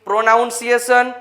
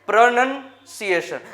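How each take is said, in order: First: The second syllable sounds like 'noun'. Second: The second syllable sounds like 'nun'. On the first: The speaker calls it wrong. "પ્રોનાઉન્સિએશન નહીં" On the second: The speaker calls it right. "સાચો ઉચ્ચાર"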